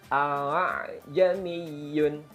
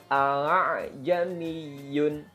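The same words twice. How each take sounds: No difference in how they are said.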